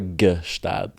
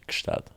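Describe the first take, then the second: First: It begins with a g plus a vowel. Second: It begins with a light g blended into s. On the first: The speaker calls it wrong. "Never gestad" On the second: The speaker calls it right. "It's more like a ch, maybe gch"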